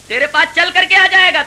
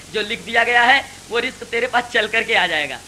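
First: آ hit high and loud on the repeat; emphatic repeat. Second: Said in the usual way. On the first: Acted. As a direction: drive the promise home, higher and louder.

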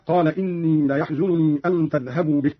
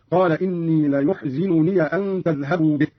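First: Said in the usual way. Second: ليحزنني said "la-yuhzinuniya"; damma, kasra, open ya. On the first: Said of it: "قوله تعالى". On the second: Shown as a demonstration. Teacher demonstrating Qalun's reading, ليحزنني as "la-yuhzinuniya". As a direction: give ليحزنني "yu", then "zi", ending on "ya". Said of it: "بضم الياء من يحزنني وكسر الزاي".

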